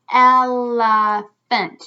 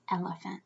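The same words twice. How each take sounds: First: Elephant very slow and loud, in three beats; syllable by syllable. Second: Said in the usual way. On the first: Shown as a demonstration. Teacher counting syllables for children, slow and loud. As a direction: stretch out el, uh, phant.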